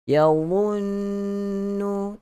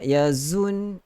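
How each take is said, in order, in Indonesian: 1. Konsonannya tebal, tanpa gesekan mendesis. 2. Konsonannya adalah bunyi z yang mendesis dan bergetar. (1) "sifat isti'la. Ada juga sifat itbaq, tebal" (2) "tak nak yazun, zzz, ada itu salah. Ada geseran salah"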